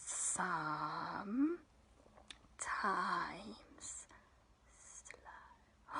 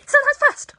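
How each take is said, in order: First: Dragged out, low, fading to a whisper; slow it right down to nothing; very slow and hushed. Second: Squealed high and loud, quick; fast shout. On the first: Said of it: "And then we go". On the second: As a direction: burst it out like a rocket. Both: Shown as a demonstration.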